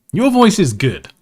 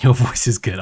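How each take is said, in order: First: Higher, lightly put-on voice; higher mock voice. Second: Said in the usual way. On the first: Shown as a demonstration. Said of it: "repeated take, voiced". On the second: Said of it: "repeated take".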